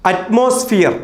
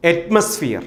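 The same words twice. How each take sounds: First: അറ്റ്മോസ്ഫിയർ with a full "mos" in the middle; common mispronunciation. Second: അറ്റ്മോസ്ഫിയർ opening on "aet", weak "mus"; correct pronunciation. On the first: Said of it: "ഇങ്ങനെയാണ് നമ്മൾ pronounce ചെയ്യുന്നത്". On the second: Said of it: "കൃത്യമായ pronunciation". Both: Shown as a demonstration.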